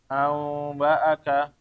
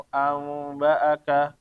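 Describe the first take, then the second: No difference in how they are said.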